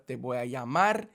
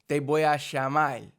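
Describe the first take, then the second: First: Plain ll sound and a final r sound. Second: A sh sound and a final l sound. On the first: "instead of" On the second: "in Argentina they do the double L as a sh sound"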